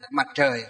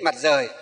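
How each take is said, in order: First: The second word starts with a curled-tongue 'tr' sound. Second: The second word starts with a plain 'r' sound. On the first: This is the standard modern pronunciation. "hơi uốn lưỡi lên một chút" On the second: This is how older people said it in the past. "ngày xưa các cụ chúng ta thì Mặt Rời"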